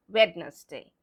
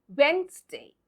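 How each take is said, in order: First: Wednesday with a voiced D, WED-nes-day; wrong spelling pronunciation. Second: Wednesday in two beats, WENZ-day; correct silent-D pronunciation. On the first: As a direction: sound out the silent D in Wednesday. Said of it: "and not Wednesday". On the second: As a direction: say Wednesday with no first D. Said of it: "So it's". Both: Shown as a demonstration.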